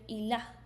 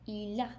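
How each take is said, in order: No difference in how they are said.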